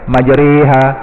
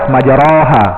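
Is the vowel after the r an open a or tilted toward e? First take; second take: tilted e; open a. First: The vowel after r is tilted toward e. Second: The vowel after r is an open a. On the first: "Imalah ni kita lewehkan majriha" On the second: "Patutnya kalau ra pada atas majaraha"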